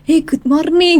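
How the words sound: It is said with a heavy Javanese accent. "kalau orang Jawa kan"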